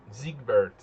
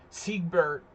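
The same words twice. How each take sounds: First: Siegbert with a German Z sound at the start; Siegbert said as "Ziegbert", German style. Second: Said in the usual way. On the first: Pretend. Streamer calls the viewer Siegbert in a German way. Announcing a chat username.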